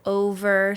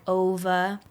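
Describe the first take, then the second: First: The R sound at the end is pronounced. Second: The R sound at the end is dropped. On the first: The speaker calls it right. "the word over" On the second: The speaker calls it wrong. "sounds like ova"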